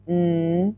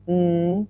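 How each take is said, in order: The two takes are said the same way.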